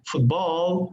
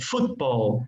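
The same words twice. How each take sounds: First: The stress is on the second syllable. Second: The stress is on the first syllable. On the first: The speaker calls it wrong. "not football" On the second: The speaker calls it right. "the stress word goes in the in the first vowel"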